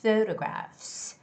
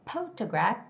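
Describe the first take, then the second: First: The word begins with an F sound, lips apart. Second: The word begins with a P sound, lips closed. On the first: The speaker calls it right. "It's photographs, photographs" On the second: The speaker calls it wrong. "So it shouldn't be photograph, photograph. That's wrong"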